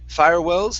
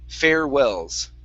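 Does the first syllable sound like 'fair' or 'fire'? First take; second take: fire; fair. First: The first syllable sounds like 'fire'. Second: The first syllable sounds like 'fair'. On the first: The speaker calls it wrong. "instead of fire" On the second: The speaker calls it right. "it's fair"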